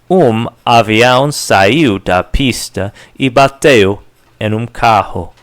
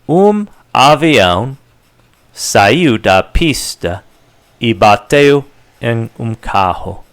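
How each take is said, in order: First: The sentence is said at a faster pace. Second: The sentence is said at a slower pace.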